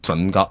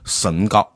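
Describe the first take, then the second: First: The first syllable sounds like chun. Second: The first syllable sounds like shen.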